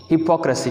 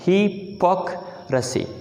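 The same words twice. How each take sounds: First: Said in the usual way. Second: हिपोक्रेसी slowly in pieces, "hi - pok - rasi"; broken into parts. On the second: Shown as a demonstration. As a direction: split हिपोक्रेसी with pauses between parts. (हिपोक्रेसी हिस्से करके, ठहर-ठहर कर) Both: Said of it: "इसके भी हिस्से कर लें".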